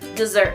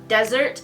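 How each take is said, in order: First: The stress is on the second syllable. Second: The stress is on the first syllable. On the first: To abandon someone. "the other way you pronounce it is dessert" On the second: A dry sandy region. "like the Sahara Desert, sand, hot"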